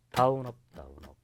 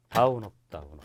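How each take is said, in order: First: First "다운" punched, "업 다운업" lighter; accent on the first 다운. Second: First "다운" louder, the rest lighter, falling at the end; accent on the first 다운. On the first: Teacher counting strums for students, first 다운 accented. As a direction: hit the first 다운 harder than the rest. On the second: Teacher repeating the strum count, first 다운 accented. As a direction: stress the opening 다운 then ease off. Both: Shown as a demonstration. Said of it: "강약약약이죠".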